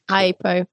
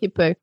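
First: The first vowel sounds like 'eye'. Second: The first vowel sounds like 'ih'. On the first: The speaker calls it right. "Hypo, not hippo" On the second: The speaker calls it wrong. "not hippo"

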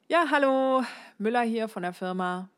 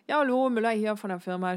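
First: The greeting is spoken fairly clearly and distinctly. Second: The greeting is rushed, with the name swallowed. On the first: "das war noch halbwegs deutlich" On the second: "Ich mache es mal extremer. Der Name verschwindet"

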